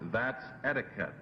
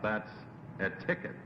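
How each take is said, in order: First: The stress in etiquette is on the first syllable. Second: The stress in etiquette is on the second syllable.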